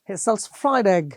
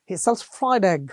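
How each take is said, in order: No difference in how they are said.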